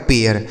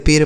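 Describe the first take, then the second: First: पेयर in two beats, "pay-yar"; correct pronunciation. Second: पेर as one beat "payr", no glide; wrong pronunciation. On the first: Teacher gives the right reading, पेयर as "pay-yar". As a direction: glide from long e into "-yar" in पेयर. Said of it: "इसे पढ़ा जाएगा". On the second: Teacher tests a wrong reading, पेर without the "-yar" glide. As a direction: say पेर with plain long e straight into r. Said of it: "यह गलत उच्चारण है". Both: Shown as a demonstration.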